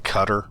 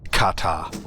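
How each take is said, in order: First: The stress is on the second syllable. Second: The stress is on the first syllable. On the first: This is how many Americans say it. The speaker calls it wrong. "we say Qatar. ... that's not correct" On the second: This is how the locals say it. The speaker calls it right. "There's like a soft R at the end, and the emphasis is on the K A H part"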